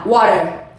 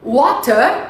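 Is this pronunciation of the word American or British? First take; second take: American; British. First: It is said with an American accent. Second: It is said with a British accent. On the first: "A pronúncia americana" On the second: "Water é a pronúncia britânica"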